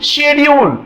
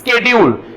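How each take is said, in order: First: The word begins with an sh sound. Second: The word begins with an sk sound. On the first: This is the British English form. "எஸ்ஹெச் ன்ற sound வரும் இந்த சி silent ஆயிடும்" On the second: This is the American English form. "அவங்க எஸ்கே ன்ற சவுண்ட்ல pronounce பண்ணுவாங்க"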